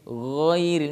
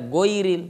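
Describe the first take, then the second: First: It starts with a rough, dragged throat sound. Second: It starts with a plain g sound. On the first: The speaker calls it right. "tapi ghairil. Memang seakan-akan terseret" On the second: The speaker calls it wrong. "bukan sekedar goiril"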